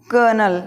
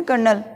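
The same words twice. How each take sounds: First: कर्नल with silent R; long schwa in कर्नल; correct pronunciation. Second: कर्नल with the R sounded; कर्नल with audible R; common pronunciation. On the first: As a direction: say कर्नल as "KUH-nul". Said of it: "उच्चारण कितना अलग है". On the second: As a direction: say कर्नल as "kar-nal". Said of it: "अपन बोलते हैं ना". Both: Shown as a demonstration.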